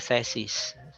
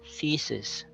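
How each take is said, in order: First: The first vowel is not a hard e. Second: The first vowel is a hard e. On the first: The speaker calls it wrong. "No, it's wrong" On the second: The speaker calls it right. "It's a hard e sound, so it's thesis"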